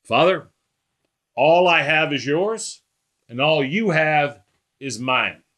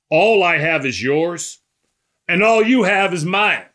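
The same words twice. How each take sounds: First: Unhurried, matter-of-fact address to a father; just talking. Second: Emphatic proclamation. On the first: Preacher voicing Jesus praying to God the Father, just talking. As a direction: say it simply and slowly, as if just talking. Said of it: "he says it like he's just talking". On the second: Preacher quoting Jesus's staggering claim, emphatic and loud. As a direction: proclaim it boldly, pushing the second half higher. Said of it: "And Jesus says it". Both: Acted.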